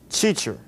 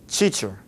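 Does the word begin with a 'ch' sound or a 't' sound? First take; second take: ch; ch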